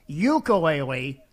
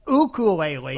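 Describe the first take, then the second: First: It is said the non-local, outsider way. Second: It is said the traditional local Hawaiian way. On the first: The speaker is not from the islands. The speaker calls it wrong. "then you ain't local" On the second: The speaker is from the islands. The speaker calls it right. "his traditional pronunciation"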